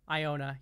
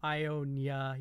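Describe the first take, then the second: First: The name has no extra y sound inserted. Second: The name has an extra y sound inserted. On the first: The speaker calls it right. "Iona. You're right" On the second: The speaker calls it wrong. "I did put like a little bit of a spin in there"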